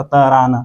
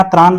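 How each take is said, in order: First: तरान with a vowel between t and r; tra split open. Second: Said in the usual way. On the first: Shown as a demonstration. Teacher spelling it simply for Nagpuri learners, ta-raan for तरान. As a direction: say त्राण as ta-raan, ending in dental n. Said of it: "सीधा सा तरान". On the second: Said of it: "त्र का आपको प्रयोग नहीं".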